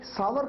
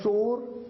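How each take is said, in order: First: The word is said like 'saawar'. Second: The word is said like 'sor'. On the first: The speaker calls it right. "सावर का मतलब होता है खट्टा" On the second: The speaker calls it wrong. "इसकी pronunciation में अक्सर लोग गलती करते हैं, कहते हैं सोर"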